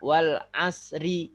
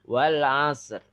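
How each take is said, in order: First: The word ends with an i vowel after r. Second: The word ends on a light r with no vowel. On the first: The speaker calls it wrong. "juga tidak dibaca wal asri. Salah" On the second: The speaker calls it right. "tambah er dikit"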